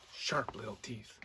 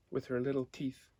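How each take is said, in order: First: Softer, hushed "sharp little teeth"; hushed repeat. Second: Said in the usual way. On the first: A narrator's reading. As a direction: lean in and breathe the words to the children. Repeated phrase to children.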